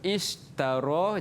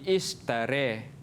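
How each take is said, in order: First: The final vowel is a plain open 'a'. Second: The final vowel is tilted toward 'e'.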